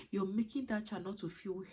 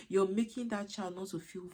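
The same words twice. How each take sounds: The two takes are said the same way.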